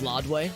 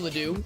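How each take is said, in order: First: The name is said in a French-style way. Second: The name is said the everyday local way.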